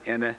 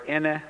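First: The word is said on a mid tone. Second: The word is said on a high tone. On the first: It means madam. "with mid-tone, it's madam" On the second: It means mother, said politely. "with high tone is mother"

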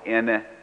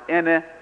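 First: The word is said on a mid tone. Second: The word is said on a high tone. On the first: It means mother. "pronounce it with mid-tone" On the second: It means madam. "with high tone, pronounced ene"

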